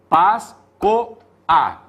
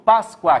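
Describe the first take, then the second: First: The final vowels are said as separate syllables. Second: The final vowels glide together in one syllable. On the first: "Vogal e vogal" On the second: "Tudo junto"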